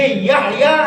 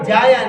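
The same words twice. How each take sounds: First: Slow "یحییٰ" with sounded h; careful y and full h in "یحییٰ"; correct pronunciation. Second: "جایا" with j and no h; wrong-example "Jaaya" in "جایا"; mispronunciation. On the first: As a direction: say "Yah-yaa" for "یحییٰ". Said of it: "یہ یحییٰ ہے". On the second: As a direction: say "Jaa-yaa" for "جایا". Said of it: "جایا نہیں ہے". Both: Shown as a demonstration.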